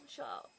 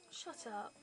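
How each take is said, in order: First: Low, curt "Shut up"; mock snappy shut up. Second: Said in the usual way. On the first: A low, curt "Shut up" to the annoying shop assistant. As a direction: snap "Shut up" low and short. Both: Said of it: "Didn't say it really chatty".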